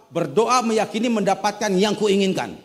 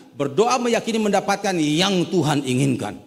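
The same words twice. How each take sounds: First: Slow, emphatic build onto "kuinginkan"; stress on KUINGINKAN. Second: Slow, firm weight on "Tuhan inginkan"; stress on TUHAN INGINKAN. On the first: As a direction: spell it out, weighting "kuinginkan". Contrasts wrong prayer with right one. (tekankan "kuinginkan" dengan tempo lambat) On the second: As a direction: spell it out, leaning on "Tuhan inginkan". The corrected prayer, set against first. (tekankan "Tuhan inginkan" dengan tempo lambat) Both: Shown as a demonstration.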